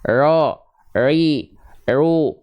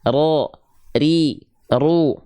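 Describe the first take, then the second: First: The r has no trill at all. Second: The r has a short, light trill. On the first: The speaker calls it wrong. "menghilangkan getarannya. Jadi kayak orang bule" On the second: The speaker calls it right. "getaran yang dia getar digetarkan dengan sedikit saja"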